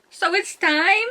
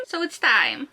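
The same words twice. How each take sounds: First: High, drawn-out "time" rising in disbelief; distraught questioning. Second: Said in the usual way. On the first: Acted. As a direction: stretch "time" slowly upward as a pained question. Quote repeated, first in disbelief.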